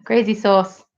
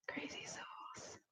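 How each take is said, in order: First: Said in the usual way. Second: Slow, barely audible whisper. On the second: Real, not acted. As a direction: whisper it slowly, almost to yourself. Repeats the phrase in a whisper.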